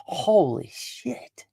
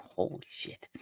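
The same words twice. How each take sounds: First: High, slow, drawn-out disbelief; high stunned slow holy shit; stunned gasp. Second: Breathy, whispered awe; whispered holy shit in shock; whispered disbelief. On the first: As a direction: stretch it out, jaw dropped in shock. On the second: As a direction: hush it out, stunned. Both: Retold or imitated. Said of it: "you're left going".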